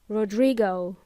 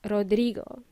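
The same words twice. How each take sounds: First: The name is said with English vowels. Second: The name is said with Spanish vowels. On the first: "they would pronounce it as Rodrigo" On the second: "If your name is Rodrigo"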